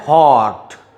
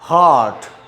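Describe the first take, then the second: No difference in how they are said.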